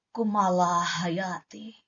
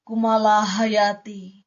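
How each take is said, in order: First: KUMALA HAYATI slow and low, vowels stretched, falling away; low poetic intonation. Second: KUMALA HAYATI slow, held level and projected; alternative poetic intonation. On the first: Poetry coach offering one intonation style, low slow KUMALA HAYATI. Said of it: "Contohnya begitulah. Atau". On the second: Poetry coach offering another intonation style, slow projected KUMALA HAYATI. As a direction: declaim Kumala Hayati in a long even line. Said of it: "Kayak gitu. Atau". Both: Shown as a demonstration.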